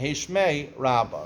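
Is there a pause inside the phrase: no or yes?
yes. There is a pause before the last word. The last word describes how much the name is blessed. The speaker calls it wrong. "don't say"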